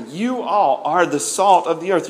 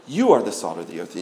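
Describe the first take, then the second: First: "You all" stressed, the whole line firmer. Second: Said in the usual way. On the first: Shown as a demonstration. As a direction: hit "You all" and lean on "salt". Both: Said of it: "It's emphatic".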